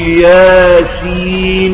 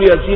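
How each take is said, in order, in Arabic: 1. تُقرأ كحرفين منفصلين بأسمائهما. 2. تُقرأ كاسم عادي واحد موصول. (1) "عشان حرفين مقطعين تقول ياسين" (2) "ما تقدرش تقول ياسين ابدا دي"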